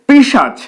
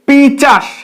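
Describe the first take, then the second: First: The sh sound comes before the ch sound. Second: The ch sound comes before the s sound. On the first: The speaker calls it right. "এর উচ্চারণ পিশাচ" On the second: The speaker calls it wrong. "কিন্তু অনেকে বলে পিচাস"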